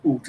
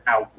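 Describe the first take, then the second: First: "oot" with an oo vowel for "out"; mock-Canadian "oot". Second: Said in the usual way. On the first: Shown as a demonstration. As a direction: say "oot" to rhyme with boot. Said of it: "they say oot instead of out". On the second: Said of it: "instead of out".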